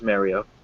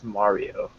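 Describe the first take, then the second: First: Mario is said in an Eastern US way. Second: Mario is said the way the character says it. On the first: This is how people in the Eastern United States say it. "Eastern United States will pronounce it as" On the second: This is how the character says his own name. "proper way is Mario"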